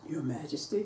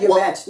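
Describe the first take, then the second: First: It is said in a low voice. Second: It is said in a normal voice. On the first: "In a low voice" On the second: "Or just said"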